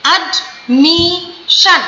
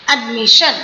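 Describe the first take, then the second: First: admission very slow, ad... mi... shan; slow syllables. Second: Said in the usual way. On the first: Shown as a demonstration. Teacher demonstrating three syllables, admission split slowly. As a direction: cut admission into three beats with gaps. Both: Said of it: "slow slow करके बोलिए".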